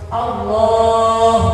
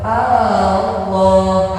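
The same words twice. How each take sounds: First: The first vowel is short. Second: The first vowel is drawn out long. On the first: The speaker calls it right. "harus langsung Allah" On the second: The speaker calls it wrong. "Tidak boleh Allah, A-nya tidak boleh dipanjangkan"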